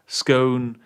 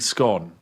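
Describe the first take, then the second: First: The vowel rhymes with the word phone. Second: The vowel rhymes with the word gone. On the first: The speaker calls it right. "maybe phone" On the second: The speaker calls it wrong. "Scone is like too close to the word gone"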